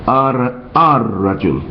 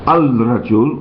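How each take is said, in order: First: No L sound; the r is doubled. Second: An L sound is heard before rajul. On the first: The speaker calls it right. "we will say" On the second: The speaker calls it wrong. "instead of saying"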